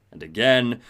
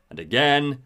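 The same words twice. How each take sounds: The two takes are said the same way.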